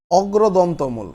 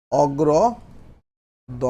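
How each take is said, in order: First: Said in the usual way. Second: অগ্রদন্তমূল very slow, with gaps between its parts; slow dictation. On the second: Shown as a demonstration. Teacher dictating a term to the class, slow and broken up. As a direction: spell out অগ্রদন্তমূল part by part for writing.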